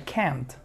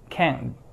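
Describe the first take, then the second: First: The final T sound is clearly pronounced. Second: The T is silent, replaced by a glottal stop.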